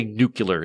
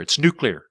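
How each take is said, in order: First: Nuclear said "NOO-kyuh-ler"; mispronounced nuclear. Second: Nuclear said "NOO-klee-er"; correcting pronunciation. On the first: Shown as a demonstration. American quoting those who get corrected, nuclear said as "NOO-kyuh-ler". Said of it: "correcting people that say nuclear". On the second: Acted. College-educated American correcting someone, nuclear said as "NOO-klee-er". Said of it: "love correcting people that say nuclear".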